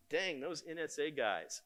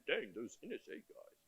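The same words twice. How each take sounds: First: Said in the usual way. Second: Lightly put-on British accent, quiet; a hint of a British accent quoting a friend; mock British accent, muttered. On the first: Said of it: "he said it in a British accent, but let's pretend". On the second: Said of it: "he said it in a British accent".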